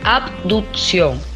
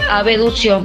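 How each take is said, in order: First: The b sound is clearly pronounced in the word. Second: The b sound is dropped from the word. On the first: The speaker calls it right. "el término correcto es que uno pronuncie la B" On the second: The speaker calls it wrong. "que la gente le dice abducción"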